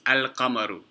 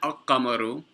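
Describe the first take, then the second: First: The l is pronounced before a single q. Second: The l is dropped and the q doubled. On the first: The speaker calls it right. "Rather, it's al-qamaru" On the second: The speaker calls it wrong. "It's not al-qamaru. There's no shadda over the qaf"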